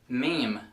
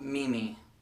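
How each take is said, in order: First: It is one syllable, rhyming with seem. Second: It is two syllables, like Mimi. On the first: The speaker calls it right. "it's pronounced like M E E M" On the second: The speaker calls it wrong. "not Mimi"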